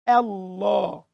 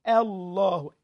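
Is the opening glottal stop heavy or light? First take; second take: light; light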